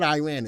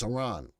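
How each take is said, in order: First: Iran said as "EYE-ran"; mistaken pronunciation. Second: Iran said as "ih-RON"; short first vowel in Iran, then "RON"; corrected pronunciation. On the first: Host repeats what viewers say is wrong, Iran as "EYE-ran". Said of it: "if the proper pronunciation". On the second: Host repeats the viewers' correction, Iran as "ih-RON". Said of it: "proper pronunciation is Iran". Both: Shown as a demonstration.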